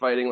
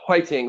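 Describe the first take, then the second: First: It is said with an English accent. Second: It is said with a Korean accent. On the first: "which is kind of like fighting" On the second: "the Konglish expression for that"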